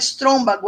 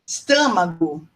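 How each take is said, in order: First: The word has extra r and b sounds. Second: The word has no extra r or b sounds. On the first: The speaker calls it wrong. "disseram que não era estrômbago" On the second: The speaker calls it right. "era esto estômago"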